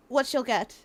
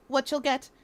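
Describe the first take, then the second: No difference in how they are said.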